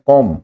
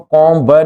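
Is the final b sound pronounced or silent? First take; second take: silent; pronounced. First: The word ends without any b sound. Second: The word ends with an audible b sound. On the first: The speaker calls it right. "ये बी silent है" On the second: The speaker calls it wrong. "इसको कॉम ब नहीं बोलोगे"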